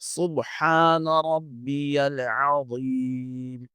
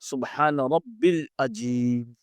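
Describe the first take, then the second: First: The middle word is said with a y: rabbiyal. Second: The middle word is said without a y: rabbil. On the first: The speaker calls it right. "रब्बियल" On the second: The speaker calls it wrong. "ये गलत है"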